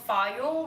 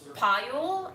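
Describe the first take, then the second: First: The name begins with an F sound. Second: The name begins with a P sound. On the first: The speaker calls it wrong. "which I learned I've been mispronouncing for half a decade" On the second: The speaker calls it right. "is apparently actually pronounced Payul, and the H is silent"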